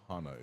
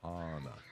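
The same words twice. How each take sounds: First: The first vowel is short. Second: The first vowel is stretched long. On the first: The speaker calls it wrong. "is actually not Hana" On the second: The speaker calls it right. "You're supposed to stretch that A"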